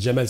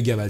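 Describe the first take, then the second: First: The name begins with a soft J sound. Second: The name begins with a hard G sound. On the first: This is the Algerian form of the name. "ils me transforment en Jamal" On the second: This is the Egyptian form of the name. "la prononciation particulière égyptienne du dja algérien qui devient ga égyptien"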